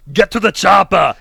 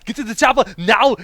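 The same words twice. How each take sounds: First: Put-on loud, slow Austrian accent; Arnold Schwarzenegger. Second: Put-on high, loud Austrian accent; hammed-up Austrian accent; Arnold Schwarzenegger. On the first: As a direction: bark it like an action hero. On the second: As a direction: yell it like an action hero. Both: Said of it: "Give me your best Arnold Schwarzenegger".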